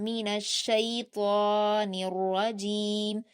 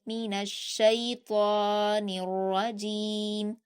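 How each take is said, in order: Both takes have the same delivery.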